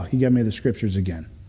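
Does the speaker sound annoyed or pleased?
annoyed. It is said in a weary, annoyed tone. Hearing scripture again is a letdown. The speaker calls it wrong. "most of the time we say it like that and it's like, oh"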